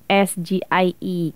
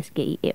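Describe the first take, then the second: First: The letters are named with English letter names. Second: The letters are named with Indonesian letter names. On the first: "seharusnya disebutnya" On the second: "harusnya nggak"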